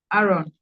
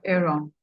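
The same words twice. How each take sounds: First: "Aaron" starting with an open "ah"; first pronunciation. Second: "Aaron" starting with an "air" sound; alternative pronunciation. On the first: Teacher calling on a student by name, "Aaron" said AH-ron. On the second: Teacher offering another way to say a student's name, "Aaron" as AIR-on. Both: Shown as a demonstration. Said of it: "which way you pronounce it".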